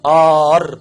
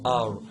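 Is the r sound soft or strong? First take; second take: strong; soft. First: The r is said strongly and forcefully. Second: The r is said softly with a slight lisp. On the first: "احنا المصريين ادوا له حقه جامد في الحرف ده" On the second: "الانجليز لما بيجي ينطقوا حرف الار عندهم لدغه كده فيها"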